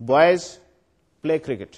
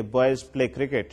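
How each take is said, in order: First: Put-on Boys called out with a rise, pause, play cricket; command, pause after Boys. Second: Put-on Boys play cricket in one even run, falling at the end; stated as fact. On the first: Lecturer ordering the boys to go and play, pause after Boys. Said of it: "اس جملے کو اس طریقے سے پڑھوں". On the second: Lecturer stating that boys play cricket, matter-of-fact, no pause. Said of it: "ایک fact کی صورت میں state کروں". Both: Shown as a demonstration.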